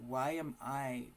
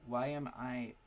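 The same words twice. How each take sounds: The two takes are said the same way.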